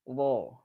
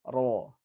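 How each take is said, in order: First: The r is said with little trill. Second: The r is said with its full trill.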